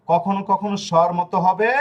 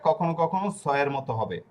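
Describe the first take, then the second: First: স্বর pronounced "shor", with hushing "sh"; sh sound. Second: সয়ের begun with a hissed "s"; plain s sound. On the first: Teacher recapping Italian S sounds, স্বর begun with "sh". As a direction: begin স্বর like "sh" in ship. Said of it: "মানে দুন্তাস স". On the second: Teacher recapping three sounds of S, সয়ের with "s". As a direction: start সয়ের like "s" in sun. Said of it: "এই তিন ধরনের উচ্চারণ". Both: Shown as a demonstration.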